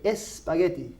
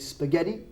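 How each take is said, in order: First: The word begins with an 'e' vowel sound. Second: The word begins directly with an 's' sound. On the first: This is the Spanish form of the word. "in Spanish, we say espagueti" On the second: This is the English form of the word. "In English, we have no E"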